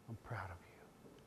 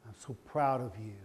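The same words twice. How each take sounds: First: Much softer, breathy whisper; father whispering to his son; whispered praise. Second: Said in the usual way. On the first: Real, not acted. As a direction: lean in and whisper it. Father repeats praise, hushed.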